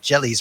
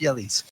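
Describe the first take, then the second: First: The name starts with an English J sound. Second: The name starts without an English J sound. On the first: The speaker calls it wrong. "it's not Jelly's marble runs" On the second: The speaker calls it right. "Jelly would be the proper pronunciation"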